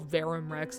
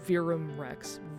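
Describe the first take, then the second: First: The first vowel sounds like 'air'. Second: The first vowel sounds like 'ear'. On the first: This is the way fans commonly said it. The speaker calls it wrong. "we typically were like, oh, Verum Rex" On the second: This is the way the makers say it. The speaker calls it right. "they say Virum, not Verum"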